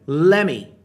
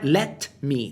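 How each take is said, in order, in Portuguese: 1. As duas palavras se juntam em uma só. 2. As duas palavras são ditas separadamente e por inteiro. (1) "quando falado por nativos, muitas vezes vai soar como" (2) "Não é let me"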